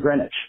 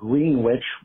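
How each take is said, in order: First: The W in the middle is silent. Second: The W in the middle is pronounced. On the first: The speaker calls it right. "which are pronounced" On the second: The speaker calls it wrong. "look like"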